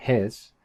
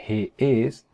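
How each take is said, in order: First: "his" as one syllable, he's; one-word contraction "his"; contracted form. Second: "he is" as two separate words; uncontracted "he is"; full form. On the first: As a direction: squeeze "he is" into "his". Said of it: "decían". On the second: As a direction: keep both vowels in "he is". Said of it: "En vez de decir". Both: Shown as a demonstration.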